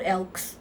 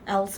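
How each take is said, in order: First: The word ends with a ks sound. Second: The word ends with a plain s sound. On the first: The speaker calls it wrong. "it's gonna come out elks" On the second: The speaker calls it right. "I did it just now"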